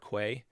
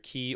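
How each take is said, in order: First: The word begins with a 'kw' sound. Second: The word sounds exactly like 'key'. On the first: "or you can say quay" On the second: "you can pronounce it as key as you think of like the Florida Keys"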